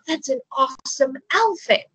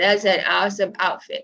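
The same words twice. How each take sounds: First: It is said in a sincere, genuine tone. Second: It is said in a mocking, sarcastic tone. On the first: The outfit really is awesome. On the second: The outfit is actually not awesome.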